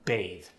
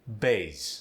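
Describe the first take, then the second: First: The final th is soft and unstressed. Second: The final sound is a strongly stressed z.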